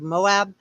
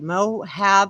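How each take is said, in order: First: It is said in a standard American accent. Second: It is said in a Southern American accent. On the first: The speaker calls it right. "instead of Moab" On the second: The speaker calls it wrong. "with my southern accent you're going to hear me say Moab"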